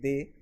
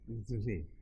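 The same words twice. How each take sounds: First: The first sound is made without friction. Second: The first sound is made with audible friction. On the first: "Now we say they" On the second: "those people would say they. You can see my tongue coming out and sort of vibrating a bit against my teeth"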